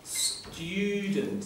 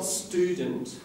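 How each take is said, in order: First: A 'y' glide follows the t sound. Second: No 'y' glide follows the t sound. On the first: The speaker calls it right. "It's got a little y in it" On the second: The speaker calls it wrong. "Not student"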